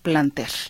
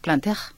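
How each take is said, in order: First: The name is said with a plain Spanish pronunciation. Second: The name is said with a French pronunciation. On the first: "con acento en la E" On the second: "Si le queremos poner acento francés"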